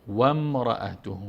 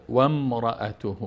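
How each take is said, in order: No difference in how they are said.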